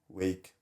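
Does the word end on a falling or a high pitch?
falling. The word ends with the pitch falling. The speaker calls it right. "I end most of my sentences now going down"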